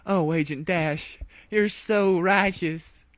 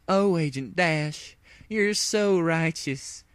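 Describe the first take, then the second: First: High, slow adoring sigh; hammed-up lovestruck swoon; swooning mare. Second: High, slow lovestruck moan; hammed-up swooning. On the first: Applejack swooning over Dash, high and slow. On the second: Applejack gazing at her savior, high and slow. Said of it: "Applejack moaned". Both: A narrator's reading.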